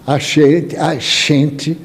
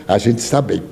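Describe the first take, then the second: First: "gente" said with a sh sound, "a xente". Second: Said in the usual way. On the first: Shown as a demonstration. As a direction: turn the g of "gente" into sh. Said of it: "com X". ("gente" pronunciado com som de X, "xente") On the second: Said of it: "que significa".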